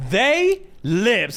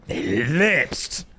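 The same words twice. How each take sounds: First: High, drawn-out excited "They lipsed"; thrilled, high-pitched announcement; excited reveal. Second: Said in the usual way. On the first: Real, not acted. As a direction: hoot the gossip out, stretching "They". Repeats the kiss reveal, thrilled.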